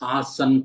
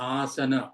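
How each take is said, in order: First: The word ends on a bare n consonant. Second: The word ends on an open a vowel. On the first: This is the Hindi form of the word. The speaker calls it wrong. "ఆసన్ కాదు. ఆసన్ అనేది Hindi" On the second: This is the original Sanskrit form of the word. The speaker calls it right.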